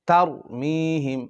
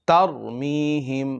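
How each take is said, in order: Both takes have the same delivery.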